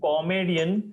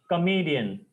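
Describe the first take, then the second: First: The first syllable is said as spelled, 'ko'. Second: The first syllable is reduced to 'kuh'. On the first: The speaker calls it wrong. "It's not comedian as we see" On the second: The speaker calls it right. "It's comedian. Ka"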